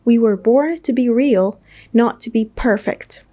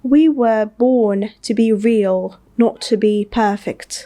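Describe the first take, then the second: First: It is spoken in an American accent. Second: It is spoken in a British accent.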